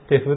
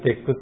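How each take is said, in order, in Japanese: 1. やわらかい「fu」の音で終わります。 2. かたい「kku」の音で終わります。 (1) "テフって、" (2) "テックっていう人が多いのかもしれません"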